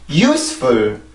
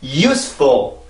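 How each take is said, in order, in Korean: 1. 두 번째 음절에서 음이 뚝 떨어져요. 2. 두 번째 음절에서 음이 다시 올라가요. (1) "이렇게 뚝 떨어뜨리게 되면 소리가 달라지게 되고" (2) "이렇게 소리가 한번 올라오면 이 소리가 영어의 리듬이 돼요"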